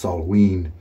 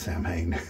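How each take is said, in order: First: It sounds like sah-win, with no m sound. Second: It sounds like sam-hain, read as spelled. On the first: This is the proper Gaelic way to say it. "it's pronounced Salween or something very close to that" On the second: This is how the makers casually say it in the shop. "we call it Samhain"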